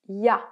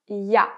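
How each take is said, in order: The two takes are said the same way.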